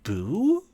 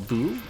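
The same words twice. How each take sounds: First: The word is said noticeably louder. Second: The word is said at normal, quieter volume.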